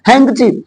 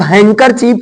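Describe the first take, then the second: First: "हैंकचीफ" with no r before the ch; r nearly silent. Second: "हैंकरचीफ" with the middle -kar- fully sounded; wrong sounded r. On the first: Teacher models handkerchief for students, r swallowed. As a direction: say "हैंकचीफ", squeezing out the middle -ar-. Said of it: "ना के बराबर बोला जाता है". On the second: Teacher shows students the form to drop, r pronounced. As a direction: say "हैंकरचीफ" in three full syllables. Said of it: "अब हैंकरचीफ ना बोलकर". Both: Shown as a demonstration.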